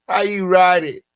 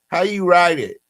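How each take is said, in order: The two takes are said the same way.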